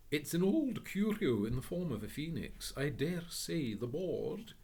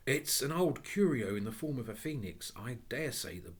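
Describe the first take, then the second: First: A gentleman reading out a label; reading the board aloud. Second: Said in the usual way. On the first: Acted. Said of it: "said the nice gentleman". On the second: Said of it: "repeated reading of the board".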